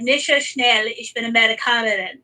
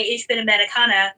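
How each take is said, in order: First: Amerikanerin said with the -in ending, ah-meh-ri-KAH-ner-in; German quote ending on Amerikanerin with its -in; feminine German form. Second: Amerikaner said without the -in, ah-meh-ri-KAH-ner; masculine German form. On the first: Retold or imitated. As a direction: end Amerikanerin on a clear -in. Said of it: "which is the feminine version". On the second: Shown as a demonstration. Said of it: "they don't teach you the I N".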